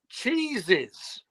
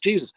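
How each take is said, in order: First: The word begins with a ch sound. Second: The word begins with a j sound. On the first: The speaker calls it wrong. "I couldn't pronounce the name Jesus. I kept saying cheeses" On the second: The speaker calls it right. "It's a Jesus"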